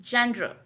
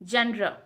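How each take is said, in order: Both takes have the same delivery.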